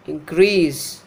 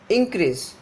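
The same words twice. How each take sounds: First: Increase with long -CREASE; inCREASE, stressed second syllable; verb stress. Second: Increase with the stress on IN; INcrease, strong first syllable; noun stress. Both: Shown as a demonstration. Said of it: "difference between the pronunciation of the noun and the verb".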